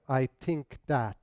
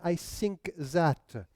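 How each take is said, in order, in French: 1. Les sons th deviennent t et d. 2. Les sons th deviennent s et z. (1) "remplacer the par te, de ... Du moins ici au Québec" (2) "En France ... mais I think that"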